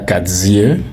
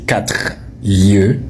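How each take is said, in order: First: A z sound is added before yeux. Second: No z sound is added before yeux. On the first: The speaker calls it wrong. "on dirait qu'ils achètent les Z à la douzaine" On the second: The speaker calls it right. "tu n'as pas besoin de commander le Z"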